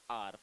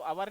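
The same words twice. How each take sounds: First: "आर" said as one short syllable, like are; correct pronunciation. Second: "आवर" said with two syllables, ow-er; the wrong way, "आवर" as ow-wer; wrong pronunciation. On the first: Teacher giving students the right pronunciation of our, one syllable. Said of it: "इसका pronunciation रहता है आर". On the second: Teacher showing students the wrong way to say our, two syllables. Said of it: "इसको आवर नहीं बोलते". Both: Shown as a demonstration.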